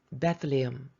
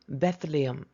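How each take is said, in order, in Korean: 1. 이 단어는 영어 소리로 발음해요. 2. 이 단어는 영어 소리로 발음해요.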